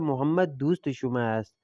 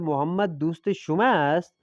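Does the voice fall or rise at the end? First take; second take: fall; rise. First: The pitch falls at the end like a statement. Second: The pitch rises at the end like a question. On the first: It states that Mohammad is your friend. "ये खबरी हो गया" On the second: It asks whether Mohammad is your friend. "Mohammad तुम्हारा दोस्त है ना"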